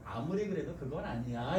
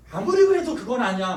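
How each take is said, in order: First: Softer and lower gentle advice; a quiet, gentle rebuke. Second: Louder advice. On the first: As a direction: bring the voice down when correcting. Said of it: "이렇게 얘기하셔야 돼요". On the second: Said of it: "충고할 때는". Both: Shown as a demonstration.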